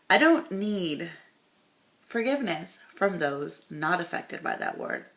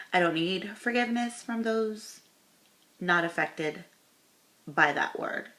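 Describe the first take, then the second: First: "don't" slowed and loud, the rest read pointedly; pointed reread. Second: Said in the usual way. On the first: Shown as a demonstration. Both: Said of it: "Girl, what?".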